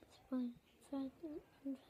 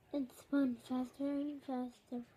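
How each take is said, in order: First: It is said quietly. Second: It is said loudly.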